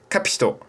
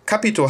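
First: The name is said with a Japanese 'pi' sound. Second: The name is said with a German pronunciation. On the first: "aber die sprechen Kapito" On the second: "Kapito heißt es"

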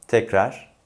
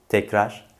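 The two takes are said the same way.

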